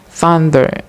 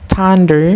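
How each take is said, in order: First: The word begins with a soft 'th' sound. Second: The word begins with a hard 't' sound. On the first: The speaker calls it right. "this word should be pronounced thunder" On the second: The speaker calls it wrong. "replace sound tha to sound ta"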